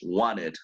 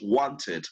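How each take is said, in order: First: It is said with an American accent. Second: It is said with a British accent. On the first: "American English" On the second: "British English"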